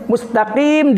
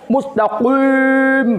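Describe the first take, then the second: First: The vowel after q is a plain 'i'. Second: The vowel after q is rounded, like 'wi'. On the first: The speaker calls it right. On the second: The speaker calls it wrong.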